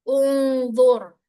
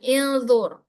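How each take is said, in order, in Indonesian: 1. Kata ini diawali dengan vokal u. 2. Kata ini diawali dengan vokal i. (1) "hamzah wasal yang depan ini dibaca domah" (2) "bukan ilzur"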